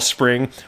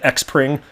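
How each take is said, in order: First: The word begins with a plain s sound. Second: The word begins with an eks sound. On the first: The speaker calls it right. "when they saw spring" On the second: The speaker calls it wrong. "how many people said X-pring?"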